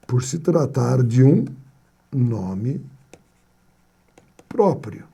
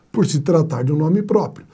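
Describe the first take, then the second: First: "Por se tratar de um nome próprio." with long pauses before "nome" and "próprio", fading softer; teacher building suspense before the answer; slow dramatic pauses. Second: Said in the usual way. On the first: Shown as a demonstration.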